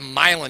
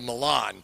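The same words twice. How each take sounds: First: It is said with an Americanized pronunciation. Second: It is said with the original European pronunciation. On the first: This is the local Indiana town name. The speaker calls it wrong. "we love to mispronounce them" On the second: This is the original European city name. The speaker calls it right. "instead of"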